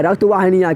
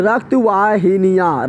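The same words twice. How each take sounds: First: Said in the usual way. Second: रक्त वाहिनियाँ drawn out very slowly, syllable by syllable; slow, spelled-out repeat. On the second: Shown as a demonstration. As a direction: stretch out रक्त वाहिनियाँ so the class can copy it. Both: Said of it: "क्या बोल रहे हैं?".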